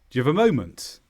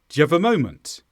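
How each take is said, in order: First: Very fast; the small words are nearly dropped. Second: The same.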